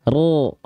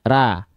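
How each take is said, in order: First: The vowel is dark, leaning toward o. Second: The vowel is an open, clear a. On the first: "Tapi angkat bagian pangkal lidah" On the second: "Kalau kita tidak mengangkat bagian pangkal lidah, bunyi vokalnya pasti A"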